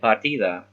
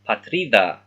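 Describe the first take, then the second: First: The r comes right after the first vowel. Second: The r comes right after the t. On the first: The speaker calls it wrong. "he's saying it wrong" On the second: The speaker calls it right. "it should be patrida"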